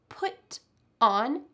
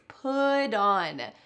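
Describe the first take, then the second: First: The middle consonant is a clear t sound. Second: The middle consonant is a quick d sound.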